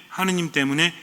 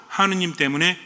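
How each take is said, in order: Both takes have the same delivery.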